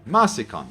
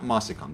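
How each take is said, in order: First: The syllable before 'sicon' sounds like 'ma'. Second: The syllable before 'sicon' sounds like 'mo'. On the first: The speaker calls it right. "Masicon, not Mosicon" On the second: The speaker calls it wrong. "not Mosicon"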